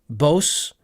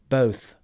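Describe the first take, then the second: First: The word ends with an s sound. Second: The word ends with a th sound. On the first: The speaker calls it wrong. "he said bos" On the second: The speaker calls it right. "This is both, th"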